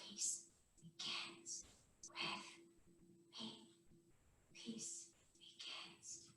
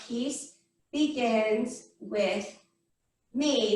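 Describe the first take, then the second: First: Whisper. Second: Slow, low, spaced-out mantra; measured chant, word by word; meditation mantra. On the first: Teacher guiding kids through a quiet meditation, whispered. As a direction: whisper each word on its own, spaced out. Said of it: "Two more whispers". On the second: Teacher leading finger-tapping meditation for the class, slow mantra. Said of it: "Goes like this". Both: Shown as a demonstration.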